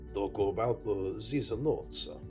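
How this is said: It is said in a Russian accent. "my Russian is more like"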